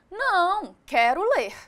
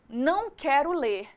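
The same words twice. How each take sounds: First: There is a pause after the first word. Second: The words run together without a pause. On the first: The speaker wants to read. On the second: The speaker refuses to read.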